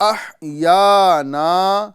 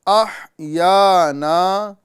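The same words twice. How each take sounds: The two takes are said the same way.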